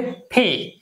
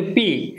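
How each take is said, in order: First: "পি" with a strong puff, phe; crisp aspirated pee. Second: Said in the usual way. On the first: Shown as a demonstration. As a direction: push "পি" out with a burst of air from both lips. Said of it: "এটা হবে পি". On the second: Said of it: "আমরা বলি".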